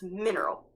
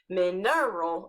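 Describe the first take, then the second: First: The stress falls on the first syllable. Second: The stress falls on a later syllable. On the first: The speaker calls it right. "these first letters are in capital, it means that's where the emphasis lies" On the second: The speaker calls it wrong. "So it's not"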